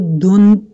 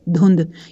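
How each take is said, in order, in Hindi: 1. अंतिम d की ध्वनि अचानक रुक जाती है। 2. अंतिम d की ध्वनि गूंज के साथ लौटती है। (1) "इसको धुंध करके तो कोई नहीं बोलता" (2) "दाल की आवाज बाउंस हो रही है ना"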